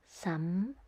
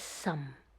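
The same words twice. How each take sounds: First: It is said in the fifth tone. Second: It is said in the fourth tone. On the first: It is not a word. "in this fifth tone, but there is the sound some" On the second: It is a surname. "The fourth tone is some"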